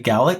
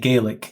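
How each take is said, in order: First: The word is said the Scottish way. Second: The word is said the North American way. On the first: This is how people in Scotland say it. "In Scotland, people say Gaelic because that's the name that the language has for itself" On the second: This is how people in North America say it. "in North America and even in Nova Scotia, where the language still exists, people tend to say Gaelic"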